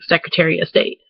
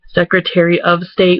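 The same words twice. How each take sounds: First: The phrase is squeezed together, sounding like 'Secretaria'. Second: Every syllable of the phrase is said clearly. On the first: "like Secretaria instead of Secretary of State" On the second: "We don't ever like say it like that"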